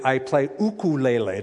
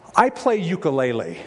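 First: Ukulele is said in the Hawaiian-style way. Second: Ukulele is said in the common anglicized way. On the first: The speaker calls it right. "That's how you say it" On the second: The speaker calls it wrong. "the false pronunciation"

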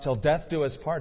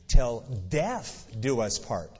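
First: The phrase is said at a normal pace. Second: The phrase is said slowly and deliberately.

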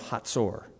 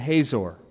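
First: The middle has a ts sound. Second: The middle has a plain z sound. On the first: This is the Hebrew way of saying it. "The Hebrew pronunciation is usually different than English" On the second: This is the usual English way of saying it. "we're American, so let's just say he reigned in Hazor"

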